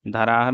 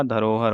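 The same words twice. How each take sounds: First: धराहर with "aa" in the middle. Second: Said in the usual way. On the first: Shown as a demonstration. Teacher showing the mistake, धराहर with aa for o. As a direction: open the middle vowel of धराहर to aa. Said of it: "नहीं होगा". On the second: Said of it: "धरोहर होगा".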